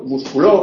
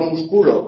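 First: The stress falls on the last syllable. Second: The stress falls before the last syllable.

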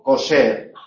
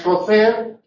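First: The middle consonant is an s sound. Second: The middle consonant is an interdental th sound.

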